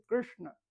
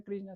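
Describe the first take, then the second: First: Krishna with the vowel and sh curled back; retroflex Sanskrit pronunciation. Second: Said in the usual way. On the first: Shown as a demonstration. Teacher showing the correct Sanskrit name, Krishna said retroflex. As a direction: curl the tongue back on Krishna. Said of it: "es retroflexa". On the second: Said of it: "no se pronuncia Krishna".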